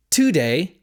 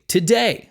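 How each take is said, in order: First: "today" stressed on the first syllable, TO-day; misplaced stress. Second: Said in the usual way. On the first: Shown as a demonstration. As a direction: punch the "to" of "today" with a full vowel. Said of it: "We don't say". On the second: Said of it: "we say".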